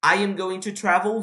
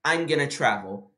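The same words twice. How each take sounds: First: "going to" with each word kept; full form. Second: "gonna" as one quick joined word; reduced form. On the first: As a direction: say "I am going to" unreduced. ("going to" completo, palavra por palavra) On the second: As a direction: shrink "going to" to "gonna". ("gonna" juntado numa palavra) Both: Shown as a demonstration.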